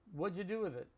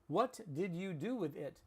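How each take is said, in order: First: The words are run together like one word. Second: Each word is said separately and fully. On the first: "it was all combined into like one word" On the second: "You understood that"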